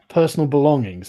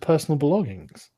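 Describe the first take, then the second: First: It is said in a firmer tone. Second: It is said in a neutral tone.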